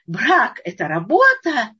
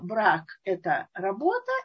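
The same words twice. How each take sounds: First: It is said in a cheerful, optimistic tone. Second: It is said in a heavy, negative tone. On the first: Marriage is joyful creative work. "веселый, хороший, оптимистичный, все это звучит" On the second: Marriage is a burden imposed from above. "работа всегда с каким-то таким отрицательным смыслом"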